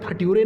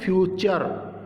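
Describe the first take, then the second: First: The middle consonant is a plain t sound. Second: The middle consonant is a ch sound. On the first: The speaker calls it wrong. "इसे फट्यूरे नहीं पढ़ेंगे" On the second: The speaker calls it right. "तो चचू की ध्वनि आई इसमें"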